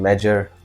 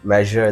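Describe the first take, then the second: First: The word is said with first-language sounds. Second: The word is said with standard English sounds. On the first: The speaker calls it wrong. "they say measure" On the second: The speaker calls it right. "instead of uh"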